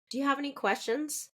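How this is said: The tone is soft and calm. The speaker calls it right. "There's a softness in that intonation when you're reassuring your patients"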